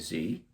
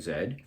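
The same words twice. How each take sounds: First: The letter is said the American way, zee. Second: The letter is said the Canadian/British way, zed.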